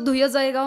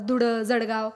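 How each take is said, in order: First: The consonant in Dhule is softened to a glide. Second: The consonant in Dhule is clearly pronounced. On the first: This is how older people used to say it. "जुनी माणसं धुय जळगाव म्हणायची" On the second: This is how people say it nowadays. "आताचे ड वापरतात"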